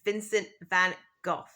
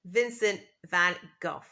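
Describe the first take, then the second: First: The name ends with a rough consonant sound. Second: The name ends with a rough consonant sound.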